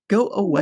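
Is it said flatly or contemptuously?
contemptuously. It is said with scornful contempt.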